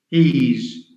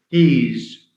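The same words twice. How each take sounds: No difference in how they are said.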